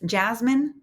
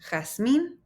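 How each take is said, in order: First: The name is said with English sounds. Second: The name is said with Spanish sounds. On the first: The speaker calls it wrong. "This is not just Jasmine" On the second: The speaker calls it right. "this is Jasmine"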